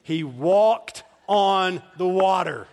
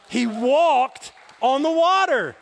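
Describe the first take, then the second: First: "He walked on the water" slow and loud, word by word; emphatic repeat. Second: Slow, high, loud shout; emphatic shout. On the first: Preacher to congregation who didn't hear, slow emphatic "walked on the water". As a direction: punch "walked", "on" and "water" separately, with pauses. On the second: Preacher repeating to an unmoved congregation, shouting emphatically. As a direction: belt it out, stretching "walked". You obviously didn't hear what I said. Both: Real, not acted.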